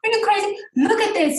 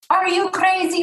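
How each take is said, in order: First: Imitating dad's Arab accent, high and incredulous; exasperated Arab-accented father. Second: Imitating her dad's Arab accent, pitched up high; mock dad in an Arab accent; Arab-accented dad, exasperated and high. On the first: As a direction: play her dad in an Arab accent, pitched way up. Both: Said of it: "with his Arab accent".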